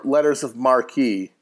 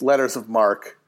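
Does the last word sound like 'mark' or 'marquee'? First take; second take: marquee; mark. First: The last word ends with a long 'ee' sound. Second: The last word is one syllable, 'mark'. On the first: The speaker calls it wrong. "did I say that wrong" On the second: The speaker calls it right. "It's letters of mark"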